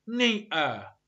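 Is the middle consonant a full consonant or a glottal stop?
glottal stop. The middle consonant is a glottal stop. "اللهجات مثل لهجة كوكني يقولون"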